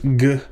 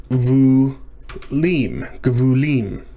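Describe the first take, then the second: First: "gvulim" broken into slow, separate syllables; halting "gvulim", a pause after each syllable; sounding it out. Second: Said in the usual way. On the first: Real, not acted. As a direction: piece "gvulim" together syllable by syllable, pausing between. Builds the plural syllable by syllable.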